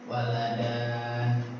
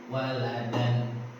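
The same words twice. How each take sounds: First: The final vowel is drawn out long. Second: The final vowel is kept short. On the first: The speaker calls it wrong. "Jadi bukan waladan" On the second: The speaker calls it right. "tapi waladan, jadi tidak dipanjangkan"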